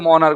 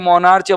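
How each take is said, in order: First: The word ends with a k sound. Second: The word ends with a ch sound. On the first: The speaker calls it right. "वैसे उच्चारण इसका मोनार्क होता है" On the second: The speaker calls it wrong. "मोनार्च याद कर सकते हो"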